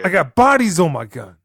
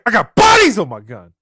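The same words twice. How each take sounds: First: It is said weakly, without real conviction. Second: It is said forcefully, with real conviction.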